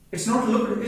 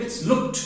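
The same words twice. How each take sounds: First: "looked" said as a wrong full-ending version; teacher demonstrating the wrong way to say "looked"; wrong take of looked. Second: "looked" said with a short t ending, looked; ending the word on a half k and t; correct looked. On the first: Teacher to class, demonstrating the wrong "looked". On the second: Teacher to class, modelling the correct "looked". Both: Shown as a demonstration.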